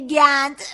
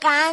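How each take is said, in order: First: The word starts with a hard g sound. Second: The word starts with a deep q sound. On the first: This is how the friend with an accent says it. "میگه گند" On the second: This is the standard pronunciation. "به جای قند"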